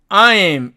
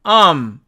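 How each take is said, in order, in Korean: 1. 이 모음은 두 부분으로 이루어진 완전한 이중모음이에요. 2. 모음의 뒷부분은 빠져요. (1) "원래는 이 말이 I'm, I'm 이렇게 발음이 됐었는데" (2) "I'm에서 am 이렇게 변하게 되는 겁니다"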